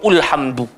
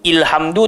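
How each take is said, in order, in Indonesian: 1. Kata ini diawali dengan vokal u. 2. Kata ini diawali dengan vokal i. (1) "tak baca ulhamdu" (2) "Tak bunyi ilhamdu"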